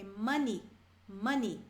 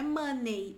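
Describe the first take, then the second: First: "money" ending in a short clear i; correct money. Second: "money" ending like "mânei", the wrong way. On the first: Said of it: "é money". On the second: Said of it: "não é money". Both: Shown as a demonstration.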